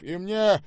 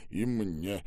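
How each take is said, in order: First: Loud, high-pitched call; eager demand. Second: Tired. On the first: Acted. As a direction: pipe up forcefully for your share. Штаубе eagerly reaches for ice cream. (громко, с охотой) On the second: A narrator's reading. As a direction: sigh it out with no effort. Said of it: "устало выдохнул Ребров". (устало, на выдохе)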